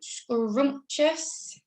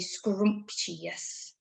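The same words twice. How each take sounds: First: The ending is one short syllable, no ee. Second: An extra ee sound comes before the ending.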